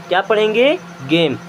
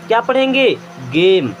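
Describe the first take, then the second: No difference in how they are said.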